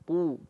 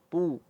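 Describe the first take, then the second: Both takes have the same delivery.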